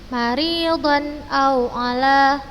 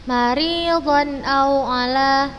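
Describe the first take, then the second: The two takes are said the same way.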